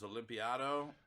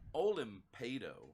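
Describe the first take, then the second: First: The name has an extra 'i' before 'ado'. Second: The name ends in a plain 'ado' sound. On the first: The speaker calls it wrong. "for the first year knowing you, it was Olympiado" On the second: The speaker calls it right. "I'm overpronouncing your name tonight"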